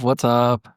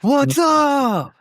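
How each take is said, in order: First: The greeting sounds sad and low. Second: The greeting sounds cheerful and upbeat. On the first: The speaker calls it wrong. "why does that sound sad?" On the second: The speaker calls it right. "That sounds a lot better"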